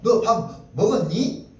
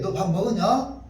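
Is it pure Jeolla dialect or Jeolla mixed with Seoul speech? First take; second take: Seoul-mixed; pure Jeolla. First: It is Jeolla speech mixed with Seoul speech. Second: It is said in pure Jeolla dialect.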